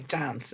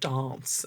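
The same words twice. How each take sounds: First: The word is said with an Irish vowel. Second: The word is said with an English vowel. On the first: This is how the children still say it. "say dance" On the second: This is how people around them say it. "instead of dance"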